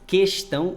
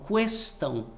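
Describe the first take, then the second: First: The U after the Q is silent. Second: The U after the Q is pronounced. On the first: "o U não é pronunciado" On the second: "Mas se pronunciar, também está correto"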